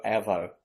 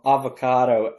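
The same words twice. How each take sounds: First: Avo cut to two short syllables; shortened Aussie slang. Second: Said in the usual way. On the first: Shown as a demonstration. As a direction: say avo low and casual, Australian style. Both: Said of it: "they just shorten everything".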